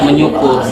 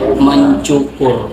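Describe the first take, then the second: First: The prefix is followed by an 'ny' sound. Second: The prefix is followed by an 'nc' sound. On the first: The speaker calls it wrong. "Seharusnya dia tidak menyukur" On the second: The speaker calls it right. "tapi seharusnya itu mencukur"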